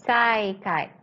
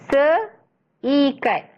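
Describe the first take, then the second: First: The vowels merge into one syllable. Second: The two vowels are said as separate syllables. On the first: The speaker calls it wrong. "kalau misal kata kita tak letakkan hamzah, dia akan bunyinya saikat" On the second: The speaker calls it right. "bunyinya seikat"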